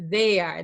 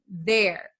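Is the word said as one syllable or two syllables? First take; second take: two syllables; one syllable. First: It is said as two separate syllables. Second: It is said as one single syllable. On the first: The speaker calls it wrong. "a lot of my students... they pronounce this as they are" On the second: The speaker calls it right. "it is the same pronunciation as this one"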